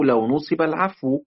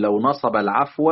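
First: نصب as "nusiba", العفو as "al-'afwu"; passive-verb version. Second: نصب as "nasaba", العفو as "al-'afwa"; active-verb version. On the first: Teacher offers reader the other option, passive voicing. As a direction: say نصب with u then i, العفو ending in -u. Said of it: "أو". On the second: Teacher offers reader a first option, active voicing. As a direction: say نصب with a-vowels, العفو ending in -a. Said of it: "يعني أنت إما تقول". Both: Shown as a demonstration.

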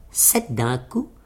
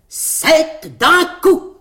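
First: Said in the usual way. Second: Very slow, high, loud proclamation; proclamation triomphale. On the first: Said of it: "qui lut". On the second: A narrator's reading. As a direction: announce it like a slogan in big letters. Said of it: "broda dessus en grosses lettres". (proclamé lentement, fort et haut)

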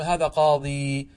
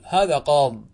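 First: Slow قاضي with long final ee; ya kept. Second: قاض closed on the consonant, louder; ya dropped. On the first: Teacher shows the permitted alternative, qadi with long ee. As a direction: draw out the ya of قاضي. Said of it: "ويجوز الوقف عليه بإثبات الياء". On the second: Teacher shows the majority's pause, qaad without ya. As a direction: end firmly on the d of قاض, no ee. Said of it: "تحذف الياء". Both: Shown as a demonstration.

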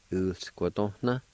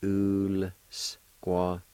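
First: Said in the usual way. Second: "ul squatona" slowly, with gaps between syllables; syllable-by-syllable pronunciation. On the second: Shown as a demonstration. Teacher showing the L sound with the U, slowly sounded out. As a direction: stretch "ul squatona" into separate sounds. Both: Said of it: "pronounce the L sound with the U like this".

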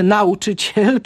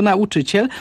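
First: "nauczyciel" with exaggerated misplaced stress on NA; wrong stress on nauczyciel. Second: Said in the usual way. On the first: Shown as a demonstration. Expert shows an absurd error, "nauczyciel" stressed on its prefix. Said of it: "No i nie mówimy". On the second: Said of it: "tylko nauczyciel".

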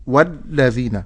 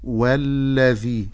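First: "والذين" with the lam pressed hard and cut short; over-hard lam. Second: "والذي" with a smooth, gently held double lam; balanced lam. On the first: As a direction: hit the doubled lam in "والذين" too forcefully. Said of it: "باللام في شدة فأقول والذين". ("والذين" بلام شديدة) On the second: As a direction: glide slowly through the lam of "والذي". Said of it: "ولكن أقول والذي". ("والذي" بلام مشددة دون مبالغة) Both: Shown as a demonstration.

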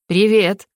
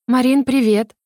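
First: Cool, level greeting; not too friendly. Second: Cheery greeting, pitched higher; cheerful. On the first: Younger sister answering Larisa, not too friendly. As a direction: return the greeting without much welcome. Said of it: "не слишком дружелюбно ответила". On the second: Larisa greeting her younger sister, feigned cheerfulness. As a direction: greet brightly, putting on good cheer. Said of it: "Хотя говорила Лариса жизнерадостно". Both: A narrator's reading.

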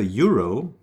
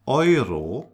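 First: Euro said "YOO-roh"; English pronunciation. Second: Euro said "OY-roh"; German pronunciation. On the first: Teacher shows what not to say, English YOO-roh. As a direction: start Euro with English "you". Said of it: "So we don't say". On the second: Teacher corrects learners' Euro, German OY-roh. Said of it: "So we don't say Euro". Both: Shown as a demonstration.

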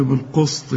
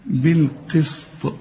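First: بالقسط with the sin wrongly thickened like a sad; mock the heavy sad sound; emphatic sad instead of sin. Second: بالقسط slow, with a thin, clear sin and a heavy qaf; clear light sin, slow. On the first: Teacher mimics a student saying sad for sin. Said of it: "أمال بتقول لي بالقسط ليه". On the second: Teacher gives the correct sin in بالقسط. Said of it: "يبقى السين إيه". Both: Shown as a demonstration.

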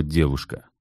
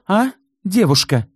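First: Said in the usual way. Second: Девушка said high and loud with scorn; scornful stress. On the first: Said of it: "выделила слово". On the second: A narrator's reading. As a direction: lean on девушка with contempt. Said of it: "презрительно выделила слово «девушка»". (презрительный нажим на слово «девушка»)

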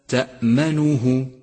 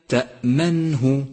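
First: تأمنه with u after ن, "ta'manuhu"; wrong vowelled Nun. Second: تأمنه with ن closed straight into hu; correct vowelless Nun. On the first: Teacher showing what to avoid in تأمنه, "ta'manuhu". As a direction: add a damma on the ن of تأمنه. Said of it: "وإياك من ضمه". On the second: Teacher modelling تأمنه, vowelless ن. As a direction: keep the ن still in تأمنه, "ta'manhu". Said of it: "لاحظ بعد ذلك سكون حرف النون". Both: Shown as a demonstration.

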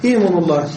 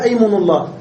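First: إيم الله opened with long i, "iymunu llah"; kasra on the hamza. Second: أيمن الله opened with a, "aymunu llah"; fatha on the hamza. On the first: Teacher citing the rarer form, إيم الله begun with i. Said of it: "وقد سمع الكسر". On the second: Teacher giving the well-known form, أيمن الله begun with a. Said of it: "المشهور فيها الفتح". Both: Shown as a demonstration.

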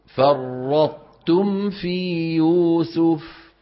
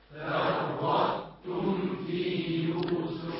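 First: فرطتم في يوسف chanted slowly; sung, intone فرطتم with ط merging; sung, slow Quran recitation. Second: Distant group chant; faint repeat; class echoing from afar. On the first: Shown as a demonstration. Sung, teacher reciting for repetition. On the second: Real, not acted. Students chanting back فرطتم في يوسف. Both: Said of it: "بتعيدوا وراي".

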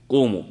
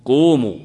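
First: Said in the usual way. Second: Loud command with "قوموا" barked out and falling; commanding call. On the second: Shown as a demonstration. Teacher ordering a group to stand, loud command.

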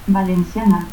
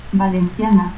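First: Valenciana as "valensiana"; seseo. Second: Said in the usual way. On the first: Shown as a demonstration.

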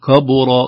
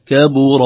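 First: "كبر" with k darkened to "kɑ"; wrong heavy kāf. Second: Loud, clear "كبر" with thin "ke"; light kāf. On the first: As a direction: thicken the first syllable of "كبر". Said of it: "لا نقول كبر". («كبر» بتفخيم الكاف) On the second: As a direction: start "كبر" light and fronted. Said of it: "نرقق الكاف". («كبر» بترقيق الكاف) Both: Shown as a demonstration.

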